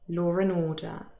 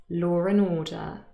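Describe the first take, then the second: First: An r sound links law to a weak 'and'. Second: The same.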